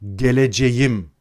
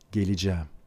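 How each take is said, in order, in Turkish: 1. Her harf yazıldığı gibi telaffuz ediliyor. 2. Bu kelime yazılışından farklı telaffuz ediliyor. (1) "Türkçe yazıldığı gibi okunan bir dil değildir. Geleceğim demezsiniz" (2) "Böyle yazarsınız ama geleceğim dersiniz"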